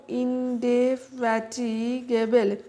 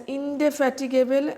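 First: ইনডেফ্যাটিগেবল said very slowly, syllable by syllable; teacher breaking ইনডেফ্যাটিগেবল up so students remember the spelling; broken into syllables. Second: Said in the usual way. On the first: Shown as a demonstration. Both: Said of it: "এইভাবে ভেঙে ভেঙে উচ্চারণ".

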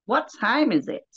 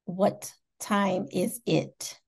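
First: Higher-pitched try at an American accent; unsure imitation of an American accent; attempted American accent. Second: Slow, careful American model; American accent demo. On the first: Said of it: "I just can't get the accent". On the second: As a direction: teach it slowly in an American accent. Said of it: "What can you teach me?". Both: Shown as a demonstration.

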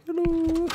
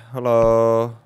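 First: Hello. in a much higher squeaky falsetto; silly high voice. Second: Said in the usual way. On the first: Pretend. Player greeting game characters in a goofy high falsetto.

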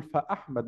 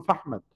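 First: "فأحمد" as "fa-ahmad", glottal stop after fa; hamza pronounced. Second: "فأحمد" merged into "fahmad"; hamza dropped. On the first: Teacher correcting for students, "فأحمد" with the hamza sounded. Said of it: "لابد أن تنطق الإيه؟ الهمزة". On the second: Teacher showing the mistake to avoid, "فأحمد" with the hamza swallowed. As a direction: say "فأحمد" with no glottal stop, f gliding straight into ahmad. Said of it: "ما ينفعش أقول فأحمد". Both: Shown as a demonstration.

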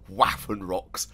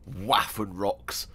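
First: Said in the usual way. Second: Waffenrocks stretched out slowly, every syllable relished; savoring the word. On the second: Shown as a demonstration. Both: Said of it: "I love the word Waffenrocks".

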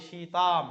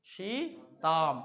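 First: Said in the usual way. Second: সীতাম stretched out very slowly, every sound held; slowly drawn out. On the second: Shown as a demonstration. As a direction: drag out সীতাম so the class hears the ending. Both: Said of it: "Sita না হয়ে সীতাম কেন হলো".

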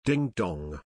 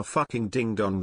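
First: A harmless little ding dong; gentle ding dong. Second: Fucking ding dong said flatly, as a real insult; harsh ding dong. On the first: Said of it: "carries a different connotation". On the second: Reading a comment, shows the rude version of the insult. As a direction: call them a fucking ding dong like you mean it. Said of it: "when you call them a fucking ding dong". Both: Shown as a demonstration.

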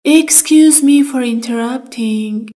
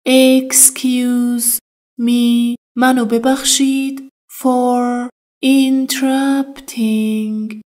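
First: Said in the usual way. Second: Slow teaching drill. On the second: Shown as a demonstration. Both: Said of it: "Interrupting یعنی".

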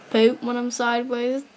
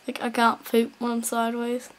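First: Said in the usual way. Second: Hushed unvoiced repeat of poop when I'm sideways; quiet whispered aside. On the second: Real, not acted. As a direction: whisper the line again to yourself.

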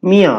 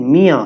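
First: মিয়া again, short, nasalized start; nasal repeat. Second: মিয়া with a nasalized first vowel; nasal correct form. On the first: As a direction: repeat মিয়া through the nose. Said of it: "আমি আবার বলছি". (মিয়া আবার, নাকি সুরে) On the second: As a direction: say মিয়া letting air out through the nose. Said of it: "একটু নাক দিয়ে বাতাস বের করতে হবে". (মিয়া নাকি সুরে, চন্দ্রবিন্দু দিয়ে) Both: Shown as a demonstration.

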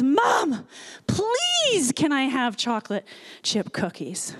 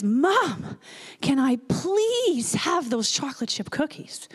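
First: Put-on slightly louder pleading child. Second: A hint of a small boy asking, please stretched; lightly voiced pleading child. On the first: Little boy asks Mom a second time for cookies, louder plea. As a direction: imitate a small boy begging more insistently. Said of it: "just a little bit louder says". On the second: Little boy asks Mom for cookies from the cart, mild pleading. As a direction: plead lightly like a hopeful three-year-old. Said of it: "the little guy stands up in his cart and says".

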